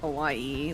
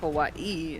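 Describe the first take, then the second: First: The word runs smoothly with no break. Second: There is a short break inside the word. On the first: The speaker calls it wrong. "not Hawaii, like everybody says" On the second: The speaker calls it right. "There's supposed to be a pause there"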